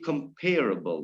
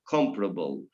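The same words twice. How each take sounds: First: The stress falls where it falls in 'compare'. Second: The stress falls differently from 'compare'. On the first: The speaker calls it wrong. "so it's compare, then it must be comparable" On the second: The speaker calls it right. "not comparable"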